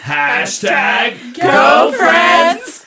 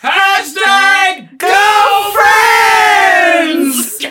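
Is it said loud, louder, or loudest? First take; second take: louder; loudest. First: It is said at a louder level. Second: It is said at the loudest level.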